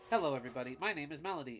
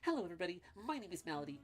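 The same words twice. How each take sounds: First: It is said in a plain, ordinary voice. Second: It is said in a put-on character voice. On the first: The speaker calls it wrong. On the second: The speaker calls it right.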